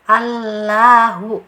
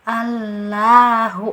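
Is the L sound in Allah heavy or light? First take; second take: light; light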